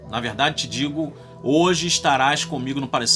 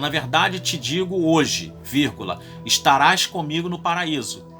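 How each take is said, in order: First: There is no break right after 'hoje'. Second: There is a break right after 'hoje'. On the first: The promise is for that very day. "sem a vírgula, você então não vai ter essa pequena pausa" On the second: The promise is for some future day. "vírgula"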